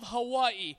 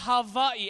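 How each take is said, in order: First: The middle consonant is a W sound. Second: The middle consonant is a V sound.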